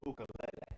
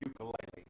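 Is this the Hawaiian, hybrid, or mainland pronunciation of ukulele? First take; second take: Hawaiian; mainland. First: It uses the Hawaiian pronunciation. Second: It uses the mainland American pronunciation. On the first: "In Hawaii, though, they most most people pronounce it ukulele" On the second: "Most people in the mainland is what they would uh, call"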